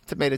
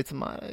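First: "tomato" said tuh-MAY-toe; long A as in "day" in "tomato"; everyday American "tomato", tuh-MAY-toe. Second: "tomato" said tuh-MAH-toe; broad A as in "father" in "tomato"; British-style "tomato", tuh-MAH-toe. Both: Shown as a demonstration. Idiom contrasts two pronunciations.

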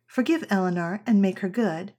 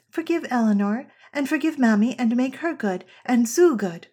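First: Said in the usual way. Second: Lightly voiced child, higher and louder; a hint of an eager little girl; child's version. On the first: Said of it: "If I say". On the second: Small daughter adding everyone to her prayer, lightly childlike. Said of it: "she will say".

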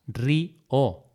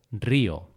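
First: "Río" separated as rí, o; syllable by syllable. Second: Said in the usual way. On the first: Shown as a demonstration. Teacher illustrating separation of syllables, syllable by syllable. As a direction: leave a gap inside "Río" after rí. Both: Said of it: "esa separación de sílabas".

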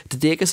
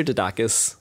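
First: DIDAKIS with an "ay" middle, di-DAY-kis; first pronunciation. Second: DIDAKIS with an "ah" middle, di-DAH-kis; alternative pronunciation. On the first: Host checking guest's surname, Didakis said di-DAY-kis. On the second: Host offering guest another option, Didakis said di-DAH-kis. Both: Shown as a demonstration. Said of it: "Didakis or Didakis?".

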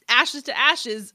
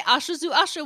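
First: Said in the usual way. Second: "Ashes to Ashes" said as "Asche zu Asche"; German "ah-sheh tsoo ah-sheh" for "Ashes to Ashes"; German pronunciation. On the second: Shown as a demonstration. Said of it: "made it German".

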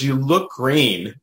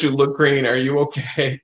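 First: Slow, concerned teller voice; drawn-out worried remark; quoting the bank teller. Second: Said in the usual way. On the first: Retold or imitated. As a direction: say it slowly, like a worried clerk. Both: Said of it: "That's what she says".

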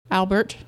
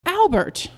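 First: Said in the usual way. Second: High, sharp exclamation of the name; scolding, pitch shooting up then falling; shocked reproach. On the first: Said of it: "she said". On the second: A narrator's reading. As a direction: cry out his name in outrage. Wife catches husband's evasion, exclaims.

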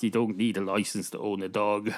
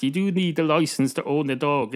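First: Said in the usual way. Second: "do" stressed, higher in pitch. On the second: Acted. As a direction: lean emphatically on "do" for contrast. Corrects to the opposite rule.

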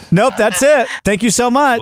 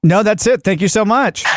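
First: High, bright customer reply; chirpy over clear scripted. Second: Chirpy over clear scripted. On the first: Shown as a demonstration. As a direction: chirp it out cheerfully. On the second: Pretend. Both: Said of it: "no, I'll say".

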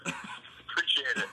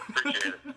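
First: Slow breathy whispered thanks; whispering. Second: High laughing thanks. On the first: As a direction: murmur it slowly under your breath. Whispered thanks, then repeated. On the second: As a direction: say it again through a laugh. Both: Real, not acted.

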